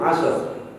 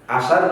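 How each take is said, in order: First: The final two consonants are said together. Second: A vowel is inserted between the final consonants. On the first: This is the original Arabic form. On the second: This is how Indonesians say it.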